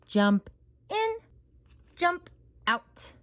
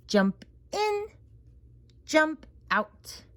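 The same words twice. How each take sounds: The two takes are said the same way.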